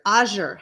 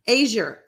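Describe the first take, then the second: First: Azure starting like "ah"; Azure, first syllable as in spa; Azure as AH-zher. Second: Azure starting like "ay"; Azure, first syllable rhyming with day; Azure as AY-zher. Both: Shown as a demonstration. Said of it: "How do you pronounce that word?".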